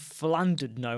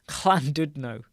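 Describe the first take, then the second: First: The first sound is not like a K. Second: The first sound is like a K. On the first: The speaker calls it wrong. "I've been saying Flandudno and I've got it wrong" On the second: The speaker calls it right. "It sounds like a K"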